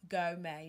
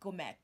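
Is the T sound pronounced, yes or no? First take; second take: no; yes. First: The T sound is not pronounced. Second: The T sound is pronounced. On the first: The speaker calls it right. "It's go may" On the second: The speaker calls it wrong. "Not gourmet"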